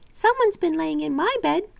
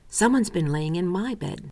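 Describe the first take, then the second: First: It is said in a little wee bear voice. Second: It is said in a middle-sized bear voice.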